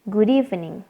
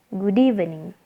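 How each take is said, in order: Both takes have the same delivery.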